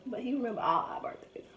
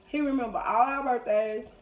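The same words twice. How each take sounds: First: Breathy unvoiced hush, no tone at all; raspy whisper. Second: Said in the usual way. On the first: Shown as a demonstration. Imitating her father's raspy voice for the audience, whispered. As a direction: whisper it low and raspy, like dad's worn voice. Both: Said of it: "real deep voice like this".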